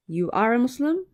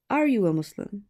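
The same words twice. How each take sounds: First: Statement made a question. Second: Said in the usual way. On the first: Shown as a demonstration. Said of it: "One is a sentence in itself". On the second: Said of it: "the other is a question in itself".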